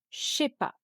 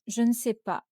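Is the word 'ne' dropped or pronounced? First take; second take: dropped; pronounced. First: The word 'ne' is left out entirely. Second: The word 'ne' is fully pronounced.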